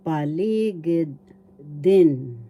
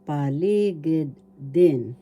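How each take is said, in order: Both takes have the same delivery.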